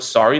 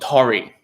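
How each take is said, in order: First: The word begins with an S sound. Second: The word begins with a T sound. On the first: The speaker calls it right. "when they say the whole word sorry" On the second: The speaker calls it wrong. "they go Tory"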